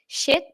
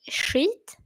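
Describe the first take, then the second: First: It is pronounced the English way. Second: It is pronounced the Swedish way. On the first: "if I say shit like this" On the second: "if we say it in Swedish"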